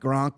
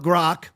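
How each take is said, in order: First: The word has an n sound before the k. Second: The word has no n sound before the k. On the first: The speaker calls it wrong. "finally stopped saying like Gronk" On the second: The speaker calls it right. "Finally saying it right"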